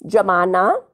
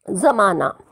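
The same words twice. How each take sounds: First: जमाना with a plain ज, like "jamana"; plain j sound. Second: जमाना with ज़ as a z, like "zamana"; nukta z sound. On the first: Teacher contrasting जमाना with a plain j. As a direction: start जमाना on a hard j as in jam. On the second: Teacher contrasting जमाना with a z sound. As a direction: start जमाना on a buzzing z. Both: Shown as a demonstration. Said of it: "जैसे आपको शब्द जोड़े दिए गए हैं".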